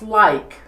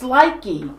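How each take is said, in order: First: The name is said with one syllable. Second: The name is said with two syllables. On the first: The speaker calls it right. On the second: The speaker calls it wrong.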